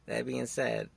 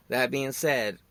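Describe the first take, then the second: First: Laughing. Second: Said in the usual way. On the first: Real, not acted. Podcaster catching himself, repeating the phrase through a laugh. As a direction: chuckle as you repeat the phrase.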